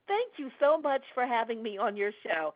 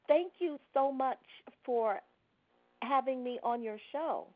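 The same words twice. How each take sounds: First: The delivery sounds relaxed and conversational. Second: The delivery sounds stiff and not conversational. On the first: The speaker calls it right. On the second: The speaker calls it wrong.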